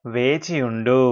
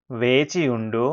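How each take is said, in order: Both takes have the same delivery.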